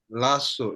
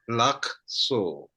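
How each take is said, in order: First: The middle k sound is dropped. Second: The middle k sound is pronounced. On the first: "not lasso" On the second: "it's lakso"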